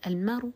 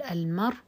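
First: المر ending in a brief, faint u; rawm. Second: المر stopped dead on the r, no final vowel; pure sukun. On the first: Teacher answers how to pause, rawm with faint final u. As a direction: say المر with a fleeting trace of damma on the r. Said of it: "بالرم". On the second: Teacher shows pausing on the word, pure sukun ending. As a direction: say المر with hamza dropped and r vowelless. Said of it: "بالسكون". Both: Shown as a demonstration.

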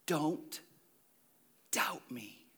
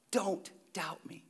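First: Said in the usual way. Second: Slow breathy whisper of a command. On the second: Shown as a demonstration. Pastor repeating Jesus' command, whispered slowly. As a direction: lean in and whisper it.

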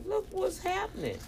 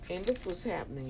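First: "Look what's happening" sent way up high; high-pitched repeat. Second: Said in the usual way. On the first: Real, not acted. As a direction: repeat it in a much higher voice. Repeats the phrase for emphasis.

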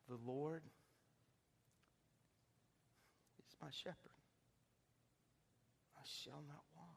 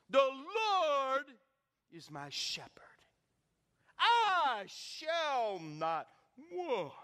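First: Soft, hesitant, halting recital; shy reading. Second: Grand, loud, drawn-out theatrical recital; eloquent actor reciting. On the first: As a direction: read it timidly, like a shy student put on the spot. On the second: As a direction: declaim it like a showy actor on stage. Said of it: "he's eloquent, he's an actor". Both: Retold or imitated.

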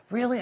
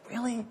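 First: Put-on high little-girl squeal of surprise. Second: High mock-amazed question; surprised question. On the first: Amazed listener to the pastor, little-girl voice. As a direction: imitate a little girl's amazed question, high. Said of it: "And she's kinda little girl". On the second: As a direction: lightly imitate an amazed listener, pitched up. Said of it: "And she's like".

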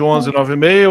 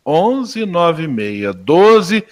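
First: Said in the usual way. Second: Very slow, each digit drawn out; repeating the digits slowly while noting the number; slow note-taking repeat. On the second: Real, not acted. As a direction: say the digits one by one as you write. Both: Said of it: "deixa eu tomar nota".

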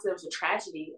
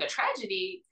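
First: Said in the usual way. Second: Retold incredulous question, higher pitched; confused echo. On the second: Questioning the date's word tragedy, retold confusion. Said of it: "Now I'm, like, super confused".

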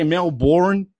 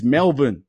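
First: "Melbourne" as mel-BORN; full "born" with a clear r in "Melbourne"; American mispronunciation. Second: "Melbourne" as MEL-bun; Australian pronunciation. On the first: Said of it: "most Americans say Melbourne". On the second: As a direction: reduce the end of "Melbourne" to a short "bun". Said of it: "When it's Melbourne". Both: Shown as a demonstration.

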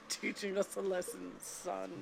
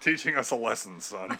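First: Stern father voice. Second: Stern father. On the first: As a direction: lecture like a gruff father. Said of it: "sounds like a stern father". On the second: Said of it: "the mommy sounds like a stern father". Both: Retold or imitated.

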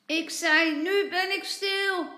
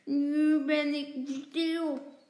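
First: Put-on high, exasperated child's shout; loud shout. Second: Slow, loud muffled words; mouth full. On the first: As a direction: shout it out clearly to be understood. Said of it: "dan roept hij hard". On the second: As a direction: talk round a mouthful of sweets. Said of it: "met volle mond zegt hij". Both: A narrator's reading.

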